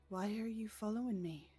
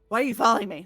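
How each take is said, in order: First: It sounds genuinely curious. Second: It sounds hostile and accusing.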